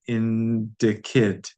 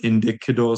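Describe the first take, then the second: First: The final vowel is dropped. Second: The final vowel is pronounced. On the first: The speaker calls it right. "What are we missing?" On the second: The speaker calls it wrong. "indikido sounds still weird"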